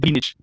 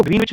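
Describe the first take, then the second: First: ग्रीनविच with the w left silent, grin-ich; ग्रीनविच said without its w, as green-ich. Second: ग्रीनविच with the w sounded, green-witch; ग्रीनविच read letter by letter as green-wich; W pronounced. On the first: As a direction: pronounce ग्रीनविच as ग्रीनिच, no v sound. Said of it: "सही pronunciation क्या होता है". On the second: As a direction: say ग्रीनविच as spelt, voicing the v sound. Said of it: "इसको ग्रीनविच नहीं पढ़ते". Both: Shown as a demonstration.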